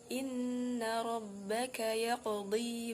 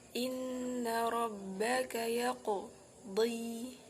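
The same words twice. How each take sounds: First: The q sound flows straight into the next. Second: There is a break after the q sound. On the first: The speaker calls it right. "Maka yang benar" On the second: The speaker calls it wrong. "memutus bacaan qalqalah dengan huruf setelahnya"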